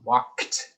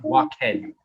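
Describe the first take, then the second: First: The ending is a short T sound. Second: The ending is an extra spoken syllable. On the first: The speaker calls it right. "it is like a K T sound" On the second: The speaker calls it wrong. "It's not walkhead"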